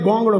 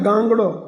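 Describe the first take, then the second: First: The first vowel is a rounded 'o' sound. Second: The first vowel is an open 'a' sound. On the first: This is how people say it in this area. "અહીંયા ગોંગડો કે" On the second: This form is not understood by everyone in this area. "ગાંગડો કહે બધા સમજે નહીં પાછા આ બાજુ"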